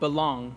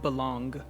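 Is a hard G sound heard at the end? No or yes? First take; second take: no; yes. First: It ends on the nasal with no G sound. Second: It ends with an audible hard G sound. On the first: The speaker calls it right. "should be pronounced belong" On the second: The speaker calls it wrong. "not belong"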